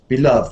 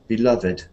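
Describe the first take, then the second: First: The ending -ed is not a separate syllable. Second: The ending -ed is a separate syllable. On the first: "is quite usual" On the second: "this one does it sometime"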